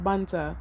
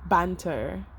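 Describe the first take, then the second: First: "banter" with a Jamaican open "ah" and no r; Jamaican accent. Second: Said in the usual way. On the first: Shown as a demonstration. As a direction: say "banter" the Jamaican way, "bahn-tah". Word repeated in Jamaican accent.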